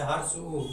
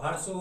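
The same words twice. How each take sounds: First: हर्ष उ with the lips pushed forward and rounded; हर्ष उ formed with both lips rounded. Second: हर्ष उ said with the mouth open and lips unrounded, a flattened u; हर्ष उ spoken through open, spread lips. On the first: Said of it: "देख सकते हैं ओष्ठ कैसे होता है". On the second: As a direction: try हर्ष उ without rounding the lips. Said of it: "अगर मुंह खोल के कभी बोला जाए". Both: Shown as a demonstration.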